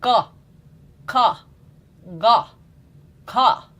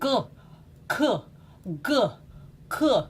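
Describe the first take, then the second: First: The syllables are produced freely and openly. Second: The syllables sound locked and held back. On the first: The speaker calls it right. "It goes like this" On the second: The speaker calls it wrong. "Like locking something here"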